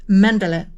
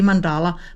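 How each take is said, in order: First: The stress falls on the first syllable. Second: The stress falls on a later syllable. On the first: This is how it is said in Danish and by the speaker. "with a pressure on the first syllable" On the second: This is how many other people say it. "a lot of people say mandala"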